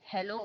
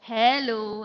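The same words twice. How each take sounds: First: The greeting sounds flat and unfriendly. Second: The greeting sounds warm and friendly. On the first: The greeting shows no real warmth. The speaker calls it wrong. "उसमें friendliness नहीं था" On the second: The greeting shows real warmth. The speaker calls it right. "Hello ऐसे बोलना चाहिए था"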